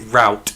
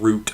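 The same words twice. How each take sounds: First: It is said with an American pronunciation. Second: It is said with a British pronunciation. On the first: The speaker has picked up the local habit. "I'm picking up your American words now as well. I say route" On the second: This is how the speaker used to say it. "instead of route"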